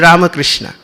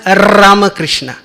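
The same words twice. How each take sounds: First: The first R is soft and light. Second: The first R is strongly rolled. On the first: The speaker calls it right. "Suave, soft" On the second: The speaker calls it wrong. "you have to give R, emphasis"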